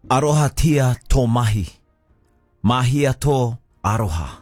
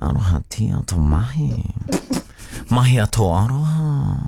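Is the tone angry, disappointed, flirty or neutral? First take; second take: neutral; flirty. First: It is said in a plain, neutral tone. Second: It is said in a flirty tone.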